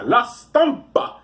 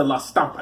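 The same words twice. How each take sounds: First: La Stampa high and drawn out, Italian-style; exaggerated Italian accent, slow and high; mock Italian accent. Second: Said in the usual way. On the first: Shown as a demonstration. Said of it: "This is how you're supposed to do it".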